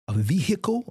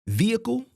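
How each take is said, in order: First: It is said with a Southern US pronunciation. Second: It is said in the speaker's own pronunciation.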